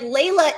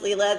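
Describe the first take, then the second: First: The first syllable sounds like 'lay'. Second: The first syllable sounds like 'lee'. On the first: This is the proper Persian form of the name. "Layla is the proper pronunciation" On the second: This is how she is actually called. "it's pronounced Leela"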